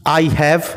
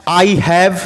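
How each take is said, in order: Both takes have the same delivery.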